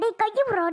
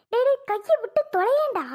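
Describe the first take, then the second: First: Said in the usual way. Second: டேய் pitched higher and pushed out; fed-up order, higher on டேய்; higher exasperated demand. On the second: Acted. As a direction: snap at him to let go of her hand. She tells him to let go.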